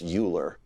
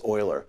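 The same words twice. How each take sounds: First: The name is said with American pronunciation. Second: The name is said with German pronunciation. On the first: The speaker calls it wrong. "In the United States, sometimes you hear it pronounced Euler" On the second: The speaker calls it right. "If you're German, you're going to pronounce that as Euler"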